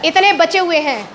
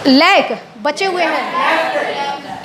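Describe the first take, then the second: First: Said in the usual way. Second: Slow, stretched out लैक बचे हुए हैं; wrong usage, drawn out. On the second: Shown as a demonstration. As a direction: drag out लैक as the wrong form. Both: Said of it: "left का इस्तेमाल करना".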